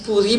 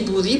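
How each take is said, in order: First: The word begins with a P sound. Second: The word begins with a B sound. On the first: "à l'écrit, on dit pou" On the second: "à l'oral, on dit bou"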